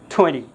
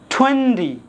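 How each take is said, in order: First: The middle T sound is dropped. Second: The middle T sound is clearly pronounced. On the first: The speaker calls it right. "we'll drop D sound here" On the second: The speaker calls it wrong. "we won't say twenty"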